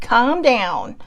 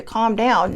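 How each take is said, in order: First: "calm down" stretched out very slowly; drawn-out command tone. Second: Said in the usual way. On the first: Shown as a demonstration. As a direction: drag out "calm down" as a pointed order. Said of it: "I think it's the tone". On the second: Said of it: "she's literally trying to tell you".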